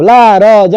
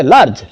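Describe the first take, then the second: First: "ला र ज" as three separate syllables; wrong split pronunciation. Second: "लार्ज" as one single syllable; correct pronunciation. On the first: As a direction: break लार्ज into ला, र, ज. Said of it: "नहीं ना कहेंगे". (लार्ज को ला र ज तोड़कर) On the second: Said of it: "अब ला र ज नहीं ना कहेंगे". (लार्ज एक ही बार में बोलें) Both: Shown as a demonstration.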